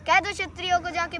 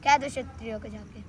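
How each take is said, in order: First: Raised, driving declamation; full-voiced recital. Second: Low, held-back verse lead-in; low-voiced recital. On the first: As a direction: launch into the verse in full voice. Full-voiced repeat of verse. (पूरे स्वर में ओजस्वी पाठ) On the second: Low first take of verse. (नीचे सुर में कविता)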